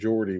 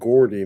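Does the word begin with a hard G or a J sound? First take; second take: J sound; hard G. First: The word begins with a J sound. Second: The word begins with a hard G sound. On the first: "not Geordie, with the J" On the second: "we would tend to pronounce that Gordy"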